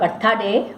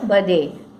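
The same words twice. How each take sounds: First: The th is split into separate t and h. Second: The th is said as one smooth sound. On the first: The speaker calls it wrong. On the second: The speaker calls it right.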